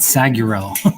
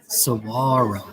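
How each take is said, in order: First: A G sound is heard in the word. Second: The G sound is silent in the word. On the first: The speaker calls it wrong. "It's not saguro" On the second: The speaker calls it right. "the G is silent"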